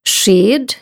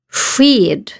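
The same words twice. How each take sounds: First: The first sound is like the rs in kurs. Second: The first sound is unlike the rs in kurs. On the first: "Eller så här, som RS i kurs" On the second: "Det kan låta så här"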